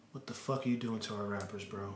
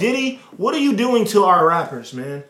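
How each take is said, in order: First: Soft, low, muttered repeat; muttered aside. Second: Loud, high, mock-outraged plea; exasperated outcry. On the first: Acted. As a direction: drop it under your breath, exasperated.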